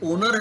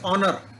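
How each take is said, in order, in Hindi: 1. पहला स्वर गोल होठों वाला 'o' है। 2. पहला स्वर 'o' और 'aa' के बीच का है। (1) "ना ओनर है" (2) "अब ऑ बीच में है"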